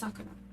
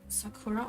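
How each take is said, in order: First: The middle syllable is not stressed. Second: The middle syllable is stressed. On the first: The speaker calls it right. "It's Sakura" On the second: The speaker calls it wrong. "stress the middle syllable"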